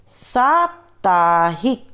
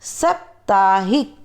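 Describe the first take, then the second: First: साप्ताहिक slow with a long first aa; correct pronunciation. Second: साप्ताहिक with a short first a, like सप्ताहिक; wrong form. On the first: Teacher gives students the correct form, slow long vowel. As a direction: stretch out साप्ताहिक with a full long aa. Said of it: "फिर हम शुद्ध उच्चारण करके बताएंगे". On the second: Teacher shows students a common error, wrong short vowel. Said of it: "पहले हम आपको अशुद्ध वर्ण बताएंगे". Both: Shown as a demonstration.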